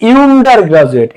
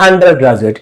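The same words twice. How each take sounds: First: ইউন্ডার said with a yu sound at the start; mock-wrong ইউন্ডার with a yu onset; wrong pronunciation. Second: আন্ডার with an open a sound, no yu; আন্ডার said right, an open a onset; correct pronunciation. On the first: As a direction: mispronounce ইউন্ডার as yoo-nder on purpose. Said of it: "না, umbrella বলি". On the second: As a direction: correct it to আন্ডার, a not yoo. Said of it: "না, আন্ডার". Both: Shown as a demonstration.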